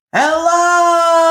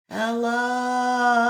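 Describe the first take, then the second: First: Full-voiced call across a valley; loud yell. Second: Distant echo. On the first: Boy yelling across the valley, loud call. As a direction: shout it as loud as you can. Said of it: "yelled as loud as he could". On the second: Echo answering the boy from the far hill, distant. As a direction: answer like an echo across a valley. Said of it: "from across the valley". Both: A narrator's reading.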